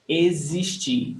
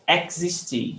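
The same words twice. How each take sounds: First: Existir said slowly with a buzzing Z; slow Existir, "eh-zeesh-CHEE". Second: Existir with a hard "eks" X. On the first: Teacher correcting the X for the class, slow clear Z sound. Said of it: "Z sound". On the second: Teacher warning the class off a mispronunciation, X as KS. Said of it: "It's not pronounced as". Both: Shown as a demonstration.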